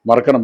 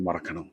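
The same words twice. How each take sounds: First: It is said lightly, without emotional weight. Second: It is said heavily, with strong emotion. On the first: The speaker calls it right. "Feel ചെയ്യാതെ പറഞ്ഞാൽ മതി" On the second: The speaker calls it wrong. "അങ്ങനെ പറയാൻ പാടില്ല"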